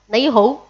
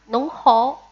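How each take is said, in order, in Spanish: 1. Se dice con la pronunciación cantonesa. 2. Se dice con la pronunciación shanghainesa. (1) "Y en cantonés" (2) "En shanghainés se dice nong hao"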